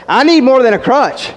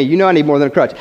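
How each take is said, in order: First: "need" punched high and louder, falling after; preacher's rising emphatic repeat; emphatic stress on need. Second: Said in the usual way. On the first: Shown as a demonstration. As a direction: cry out "I need" with force. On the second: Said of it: "those of you know me".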